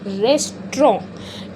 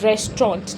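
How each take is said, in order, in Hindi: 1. अंतिम t ध्वनि silent रहती है। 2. अंतिम t ध्वनि साफ़ बोली जाती है। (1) "इसका जो लास्ट का टी होता है वो हमेशा साइलेंट रहता है" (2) "आपने ना एक चीज़ गलत बोल दी है इसमें"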